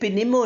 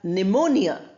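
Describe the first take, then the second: First: The P sound is pronounced at the start. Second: The P sound is silent at the start. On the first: The speaker calls it wrong. "We don't say pneumonia" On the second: The speaker calls it right. "P is not pronounced"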